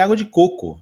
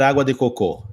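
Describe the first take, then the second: First: Said in the usual way. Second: Cocô stressed on the final syllable; gringo's slip, cocô ending in a stressed closed ô; foreigner's mistake. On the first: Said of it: "Você entende o que ele quer dizer". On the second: Acted. Gringo on a Brazilian beach asking for coconut water, cocô mis-stressed at the end. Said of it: "é do gringo na praia".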